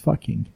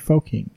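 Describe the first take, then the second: First: The first vowel sounds like 'uh'. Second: The first vowel sounds like 'oh'. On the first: The speaker calls it right. "it's not foking, it's fucking" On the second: The speaker calls it wrong. "people think it's fo, so they say foking"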